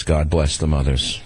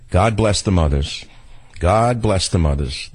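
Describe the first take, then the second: First: Slower, hushed "God bless the mothers". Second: Slow, sincere "God bless the mothers"; slow heartfelt blessing. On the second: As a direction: bless them, slowly and meant. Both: Real, not acted. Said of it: "repeated blessing".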